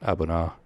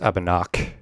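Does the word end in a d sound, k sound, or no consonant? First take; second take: no consonant; k sound. First: The word ends in a vowel, no consonant. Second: The word ends with a clear k sound. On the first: The speaker calls it right. "the D and the H are basically silent" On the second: The speaker calls it wrong. "in the U S Abanak, ... I don't think that's right"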